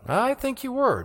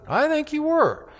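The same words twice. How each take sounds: First: Much higher, sing-song insistence; insistent servant girl. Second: Very high, held sing-song taunt; mocking servant girl. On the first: Retold or imitated. Servant girl pressing Peter again, high needling voice. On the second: Servant girl taunting Peter a third time, very high mocking voice.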